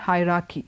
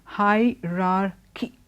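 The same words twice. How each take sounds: First: One of the two R sounds is dropped. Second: Both R sounds in the word are pronounced. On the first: The speaker calls it wrong. "not hierarchy" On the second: The speaker calls it right. "There are two R's there. So don't drop one. It's always hierarchy"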